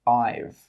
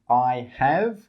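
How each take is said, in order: First: The two words are contracted together. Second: Both words are said in full. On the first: The speaker calls it right. "we say I've" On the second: The speaker calls it wrong. "We don't say I have"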